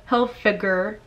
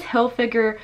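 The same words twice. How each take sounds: First: "Hilfiger" with a hard g, "Hil-fig-er"; correct Hilfiger. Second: "Hilfiger" said with a y-glide, like "Hil-fig-yer"; mispronounced Hilfiger. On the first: Vlogger reading a viewer's correction, "Hilfiger" as "Hil-figger". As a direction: say "Hilfiger" with no y-sound before the ending. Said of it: "instead of "Hilfiger". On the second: Vlogger reading a comment about her slip, "Hilfiger" as "Hil-figure". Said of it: "If she says "Hilfiger" instead of "Hilfiger". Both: Retold or imitated.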